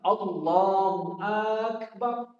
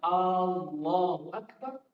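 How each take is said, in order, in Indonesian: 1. Vokal pada Akbar dipanjangkan. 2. Vokal pembuka pada Allahu dipanjangkan. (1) "tidak boleh kita memanjangkan pada bacaan akbarnya" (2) "Pada kata hamzah A itu kita panjangkan"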